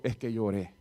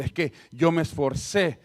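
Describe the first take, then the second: First: Said in the usual way. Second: Yo stretched and leaned on; slow, with yo pushed hard; mild mock pride on yo; stress on yo. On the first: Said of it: "yo digo". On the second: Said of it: "Cuando alguien dice".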